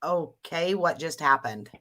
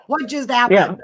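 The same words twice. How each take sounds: First: Quietly baffled, voice sinking; baffled reaction. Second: High, loud, laughing question; incredulous and laughing, voice jumping up; laughing disbelief. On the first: Acting out her baffled reaction. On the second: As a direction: blurt it through a laugh, pitched up. Laughing repeat of her reaction. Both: Retold or imitated.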